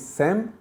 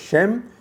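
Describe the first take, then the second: First: The name begins with an 's' sound. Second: The name begins with an 'sh' sound. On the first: "became Sem" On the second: "And what was Shem?"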